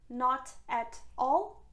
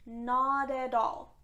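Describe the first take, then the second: First: The t sounds are pronounced as clear t. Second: The t sounds become soft d sounds. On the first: The speaker calls it wrong. "doesn't sound natural" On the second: The speaker calls it right. "it becomes d sound in both cases"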